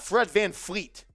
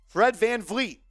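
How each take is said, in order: First: The last name begins with an F sound. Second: The last name begins with a V sound. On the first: The speaker calls it wrong. "It's not Fred Van Fleet" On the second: The speaker calls it right. "There's no F"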